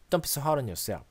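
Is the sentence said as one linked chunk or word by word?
linked chunk. Words run together with strong-weak stress rhythm. The speaker calls it right. "읽습니다"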